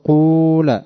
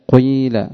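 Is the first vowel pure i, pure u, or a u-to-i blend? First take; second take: pure u; u-to-i blend. First: The first vowel is a pure u sound. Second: The vowel starts with slight u, then mostly i. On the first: "ضم الخالص أن تقول قول" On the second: "بجزء ضمة سابق قليل ثم جزء كسرة لاحق كثير"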